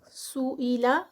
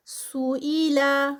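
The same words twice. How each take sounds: First: Said in the usual way. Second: سوئیلا sung slowly with its vowels held; drawn-out recitation. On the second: Shown as a demonstration. Teacher demonstrating the word in recitation, slow. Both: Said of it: "نو stretch".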